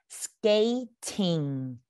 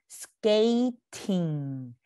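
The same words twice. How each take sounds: The two takes are said the same way.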